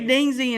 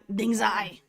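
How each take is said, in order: First: The second syllable ends in an 'ee' sound. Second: The second syllable ends in an 'eye' sound. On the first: This is how the speaker usually says it. "I say Dingzy" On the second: This is closer to how it is really said. "but I know it's like Dingzai"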